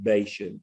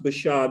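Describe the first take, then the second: First: The name is said with a Texan pronunciation. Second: The name is said with its Hebrew pronunciation. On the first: This is a tolerated local way of saying it. The speaker calls it wrong. "we're Texans and we get away with Bashan" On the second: This is how the name is really said. The speaker calls it right. "it is pronounced Bashan"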